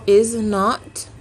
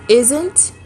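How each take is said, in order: First: It is said as two full separate words. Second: It is said as one short contracted word.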